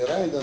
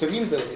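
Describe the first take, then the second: First: The first vowel is an 'ai' diphthong. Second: The first vowel is a plain 'i' sound. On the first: The speaker calls it right. "на мой взгляд, правильно говорить Райнда" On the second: The speaker calls it wrong. "Его называют папирус Ринда или Райнда"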